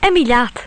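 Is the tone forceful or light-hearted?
light-hearted. It is said in a light, cheerful tone. Away you go. "if said in a light-hearted manner"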